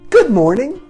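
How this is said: The greeting sounds bright and cheerful. "let's start this on a happy note"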